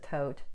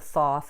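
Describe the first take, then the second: First: The name begins and ends with a t sound. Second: The name begins and ends with a th sound. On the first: This is the speaker's own pronunciation. "I pronounce it Tote" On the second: This is the name others commonly use. "what's called the Thoth"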